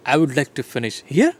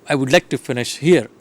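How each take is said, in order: First: "here" rising sharply at the end, as if surprised; questioning intonation. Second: "I would like to finish here." as a plain statement, no rise on "here"; statement intonation. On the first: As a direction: turn "I would like to finish here." into a question with a lift on "here". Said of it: "maybe sir is surprised". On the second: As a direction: state it as settled, "here" left without a questioning lift. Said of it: "the same sentences can be produced". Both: Shown as a demonstration.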